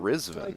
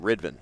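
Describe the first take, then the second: First: The consonant before the v sounds like z. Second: The consonant before the v sounds like d. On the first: This is how the name is really said. The speaker calls it right. "recently I find out his name is" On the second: This is how people assumed the name sounds. The speaker calls it wrong. "everybody called him Ridvan because, like, how else do you pronounce that name?"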